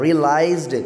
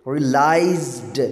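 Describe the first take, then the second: First: Said in the usual way. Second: "realised" stretched, with weight on लाइज्ड; stress on the end. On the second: Shown as a demonstration. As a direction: draw out the last syllable of "realised". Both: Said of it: "एंड पे भी ये stress आ रहा है".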